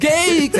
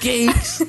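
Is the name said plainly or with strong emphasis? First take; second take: emphatic; plainly. First: The name is said with strong emphasis. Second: The name is said plainly, without extra force.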